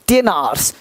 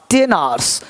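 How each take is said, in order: Both takes have the same delivery.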